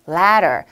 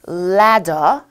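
First: It is said in an American accent. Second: It is said in a British accent. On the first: "미국 발음" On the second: "영국 발음"

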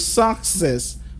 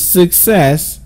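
First: The stress falls on the first syllable. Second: The stress falls on the second syllable. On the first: The speaker calls it wrong. "you've always thought the stress is on the first syllable. So you go success, but that's totally wrong" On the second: The speaker calls it right. "with the stressed syllable on the second syllable"

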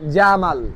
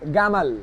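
First: The word begins with a j sound. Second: The word begins with a hard g sound. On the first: "আপনার নাম জামাল" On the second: "সেই জায়গায় মিশরিয়ানরা বলবে আপনাকে গামাল"

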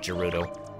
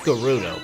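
First: The name begins with a J sound. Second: The name begins with a hard G sound. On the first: The speaker calls it wrong. "it's not Gerudo. They would have spelled it with a J if it was" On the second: The speaker calls it right. "It's pronounced Gerudo"

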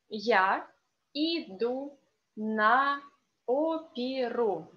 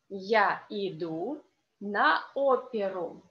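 First: It is said slowly. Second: It is said fast.

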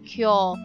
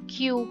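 First: It ends in a long 'oh' sound. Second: It ends in an 'oo' sound, like 'cue'. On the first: The speaker calls it right. "Pero sa kanila, hindi. Kyo" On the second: The speaker calls it wrong. "pag yung K-Y-O-U dapat sa atin. Q, ganun yung parang magiging pronunciation"

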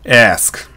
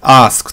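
First: The vowel is between 'a' and 'e'. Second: The vowel is a plain open 'a'. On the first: The speaker calls it right. "アスクみたいな感じですよね" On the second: The speaker calls it wrong. "アスクというよりかは"

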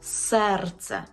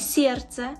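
First: The vowel after s is a plain e. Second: The vowel after s sounds like ye. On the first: The speaker calls it right. "чітко вимовляємо «е»" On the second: The speaker calls it wrong. "Не серце"

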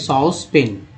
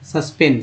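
First: The first vowel is a long 'aw' sound. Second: The first vowel is a short 'uh' sound. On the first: The speaker calls it right. "सही उच्चारण है सॉस पेन" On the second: The speaker calls it wrong. "सस्पेन बोलते हैं"

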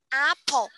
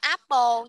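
First: The p is said with a puff of air. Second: The p is said without a puff of air. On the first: The speaker calls it right. "Bật hơi pào cho cô nha" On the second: The speaker calls it wrong. "Không có apple nha"

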